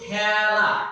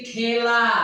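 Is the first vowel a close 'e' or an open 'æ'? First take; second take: open; close. First: The first vowel is an open 'æ' sound. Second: The first vowel is a close 'e' sound. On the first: This is how it is actually spoken. "বলি কিন্তু" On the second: This is how it is written. "লেখছি"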